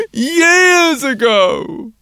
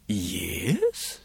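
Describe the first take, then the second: First: Put-on high, loud and drawn-out child's answer; a small boy stretching the truth; little boy voice. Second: Lower, softer, puzzled question; a policeman doubting the boy; surprised policeman. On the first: Boy's voice in story. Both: A narrator's reading.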